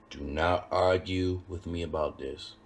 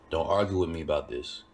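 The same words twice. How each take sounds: First: "Do not argue" said slowly, each word separate; emphatic slow repeat. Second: Said in the usual way. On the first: Real, not acted. Cook warning viewers about medium rare, slow and emphatic on "Do not".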